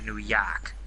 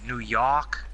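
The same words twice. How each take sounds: First: It is said in the speaker's own accent. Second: It is said in a New York accent.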